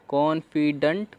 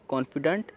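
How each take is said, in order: First: confident drawn out slowly, each syllable clear; slow demo reading. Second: Said in the usual way. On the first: Shown as a demonstration. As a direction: sound out confident carefully for the class. (धीरे-धीरे confident)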